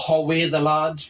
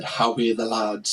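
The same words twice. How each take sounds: First: Put-on slower, Geordie accent. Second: Put-on lowered Sunderland Mackem accent. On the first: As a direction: say it slowly like a Geordie. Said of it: "which is Geordie language". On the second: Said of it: "is like Mackem, like Sunderland accent".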